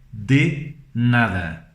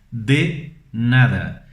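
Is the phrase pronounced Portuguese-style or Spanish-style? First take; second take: Spanish-style; Spanish-style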